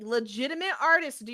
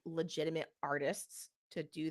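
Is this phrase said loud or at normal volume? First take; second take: loud; normal. First: It is said louder, with raised emphatic force. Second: It is said at a normal conversational volume.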